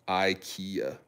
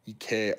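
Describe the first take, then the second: First: It is said with an American pronunciation. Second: It is said with a Swedish-style pronunciation. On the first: "That's the American way of saying it" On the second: "because it's a Swedish company"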